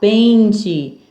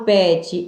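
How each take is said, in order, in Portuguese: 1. A primeira vogal é nasal, pelo nariz. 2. A primeira vogal é oral, sem som nasal. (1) "eu falo ... Som nasal" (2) "Eu não falo"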